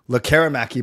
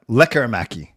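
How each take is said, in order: First: The stress is on a later syllable. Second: The stress is on the first syllable. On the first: The speaker calls it wrong. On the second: The speaker calls it right.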